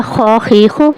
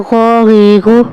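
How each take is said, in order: First: Plain rasping خ in خا خی خو; rasped خ. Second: Gargled, buzzing غ in غا غی غو; voiced غ. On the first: Teacher recapping the خ before the غ. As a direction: scrape the خ of خی. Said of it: "پہلا تھا". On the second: Teacher recapping the buzzing غ after خ. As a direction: let the throat vibrate on غی. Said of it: "یہ ہے". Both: Shown as a demonstration.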